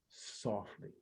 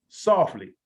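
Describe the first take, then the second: First: The word is spoken quietly and gently. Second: The word is spoken loudly and firmly. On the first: The speaker calls it right. "I say it softly" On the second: The speaker calls it wrong. "I don't say softly"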